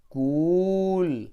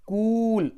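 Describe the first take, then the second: First: कूल very slow with a stretched long ऊ; slow blended cool. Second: कूल loud and high with a long ऊ; long oo in cool. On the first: Teacher to children, very slow stretched कूल. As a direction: drag कूल out to show the big ऊ. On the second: Teacher to children, high loud long oo. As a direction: hold the big ऊ in कूल. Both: Shown as a demonstration. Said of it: "बड़ा ऊ होगा".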